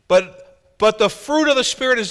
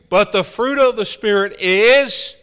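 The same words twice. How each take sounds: First: The phrase is read at a normal pace. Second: The phrase is read at a slower pace.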